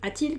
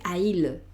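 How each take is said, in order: First: A t sound links the two vowels. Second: The two vowels meet with no t sound. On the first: The speaker calls it right. "le pongo una T en medio" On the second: The speaker calls it wrong. "Sería complicado"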